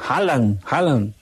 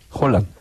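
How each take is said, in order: First: The first vowel is a strong open A. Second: The first vowel sounds more like an O. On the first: "yo le meto esa A con fuerza" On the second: "se dice que Haaland"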